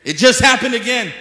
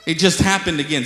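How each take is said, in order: First: High, loud shout of insistence; emphatic shout. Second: Firm, raised-volume assertion; emphatic insistence. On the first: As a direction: shout it out to the crowd. Repeats the claim, much louder. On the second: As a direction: insist firmly, a little loud. Repeating an astonishing claim for emphasis. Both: Real, not acted.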